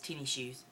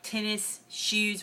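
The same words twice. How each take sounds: First: It is said with the relaxed local pronunciation. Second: It is said in a careful textbook way. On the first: The speaker calls it right. "It's tennis shoes" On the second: The speaker calls it wrong. "you don't really say it that way"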